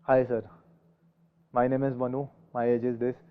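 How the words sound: It is spoken in a dull, lifeless tone. The speaker seems uninterested and unfit for the job. "एक होता डल"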